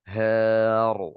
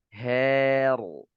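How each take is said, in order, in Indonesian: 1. Suku kata h dibunyikan tebal dan berat. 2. Suku kata h dibunyikan tipis dan ringan. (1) "ketika huruf tipis itu bersanding dengan huruf tebal, dia baca seperti ini ... ini salah" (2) "suara itu turun, tidak naik ... Suara itu tidak terkumpul di langit-langit"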